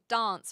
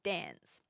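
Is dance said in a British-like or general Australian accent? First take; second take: British-like; general Australian. First: It is said with a British-like accent. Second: It is said with a general Australian accent. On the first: The speaker is from South Australia. "have more of a British accent. So they will say dance" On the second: The speaker is from elsewhere in Australia. "rather than dance"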